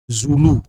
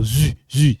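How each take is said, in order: First: "Zulu" as zoo-loo; African name. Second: "Zu" as zü, fronted French u; French sound. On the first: Teacher showing an African name, "Zulu" as zoo-loo. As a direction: say "Zulu" with back oo vowels. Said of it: "you're using, like, African name". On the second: Teacher showing the sound change, "Zu" as French zü. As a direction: say "Zu" with tongue forward and lips rounded. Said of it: "The sound change". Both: Shown as a demonstration.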